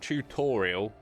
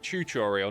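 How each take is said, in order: First: The first syllable sounds like 'too'. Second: The first syllable sounds like 'choo'. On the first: "not tutorial" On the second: "It's like Choo Choo Train"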